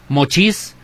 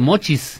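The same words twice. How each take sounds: First: The stress is on the second syllable. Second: The stress is on the first syllable. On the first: The stress was shifted to fit the music. The speaker calls it wrong. "A veces dicen mochis en lugar de" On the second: This is the normal spoken stress. The speaker calls it right. "en lugar de mochis"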